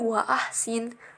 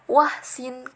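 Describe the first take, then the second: First: A glottal stop separates wa from ahsin. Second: Wa runs straight into hsin without a stop. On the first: The speaker calls it right. "itu tetap bisa menjadi wa ahsin" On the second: The speaker calls it wrong. "bukan wahsin kayak gitu"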